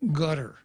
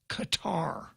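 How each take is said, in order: First: It sounds like the English word gutter. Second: It does not sound like gutter or cutter. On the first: The speaker calls it right. "It's gutter" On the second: The speaker calls it wrong. "is not pronounced Qatar"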